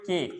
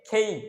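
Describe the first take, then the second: First: The k is unaspirated with a plain vowel. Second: The k is aspirated with a gliding vowel. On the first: The speaker calls it wrong. "But এটাও ভুল" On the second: The speaker calls it right. "এটার উচ্চারণ হচ্ছে খেই"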